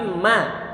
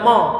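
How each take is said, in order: First: The vowel is light and open, like 'ma'. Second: The vowel is heavy and rounded, like 'mo'. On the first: The speaker calls it right. "tapi ma" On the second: The speaker calls it wrong. "nggak boleh dibaca mo"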